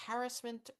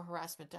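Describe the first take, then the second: First: "harassment" said the first of two ways, stress up front: HAR-ass-ment; first pronunciation of harassment. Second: "harassment" with stress on the middle: huh-RASS-ment; alternative pronunciation of harassment. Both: Shown as a demonstration. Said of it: "I'm never sure if it's harassment or harassment".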